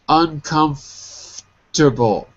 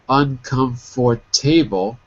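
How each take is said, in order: First: One syllable is dropped, giving four syllables. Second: Every syllable is said, giving five syllables. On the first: The speaker calls it right. "We say it like that" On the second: The speaker calls it wrong. "Too many syllables"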